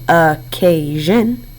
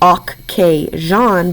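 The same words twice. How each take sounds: First: It is said smoothly with a reduced ending. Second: Each syllable is said fully and distinctly. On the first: This is how the word is normally spoken. "but we say occasion" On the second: This is the form used to remember the spelling. "We think to spell occasion"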